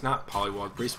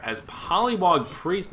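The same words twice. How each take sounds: First: Not stressed, quiet and lower; quiet self-correction, stress on not. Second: Said in the usual way. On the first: Real, not acted.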